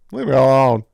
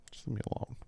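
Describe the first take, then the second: First: Loud, higher mock yell; mock-angry shout after the whisper. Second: Breathy hushed whisper; a pretend plea to be left alone, whispered. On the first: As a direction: bark it out as a joke. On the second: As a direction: mutter it under your breath. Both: Mock plea, whisper then shout.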